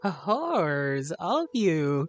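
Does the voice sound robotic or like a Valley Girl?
Valley Girl. It is said in a put-on Valley Girl voice. "That's the best Valley Girl voice I can do"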